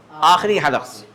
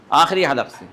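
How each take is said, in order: Both takes have the same delivery.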